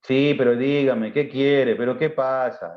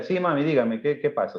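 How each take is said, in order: First: Slow, mildly irritated, annoyed tone; bad-tempered reply. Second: Loving son answering his mother kindly; sweet to mom. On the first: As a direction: answer mom grudgingly, fed up. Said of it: "cuando estamos de mal día o mal genio". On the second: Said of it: "O que le diga". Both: Shown as a demonstration.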